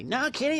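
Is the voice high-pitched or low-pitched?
high. It is said in a high, squeaky voice. The speaker calls it wrong. "Don't say it high voice. Like Cartman. You don't say"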